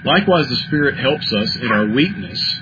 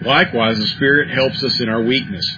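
First: The voice runs on after the last word. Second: The voice comes to a full stop. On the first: The sentence continues into the next thought. "See how easy it is to run through there?" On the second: The sentence is complete on its own.

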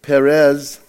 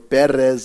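First: The name is pronounced in an English way. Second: The name is pronounced in a Spanish way.

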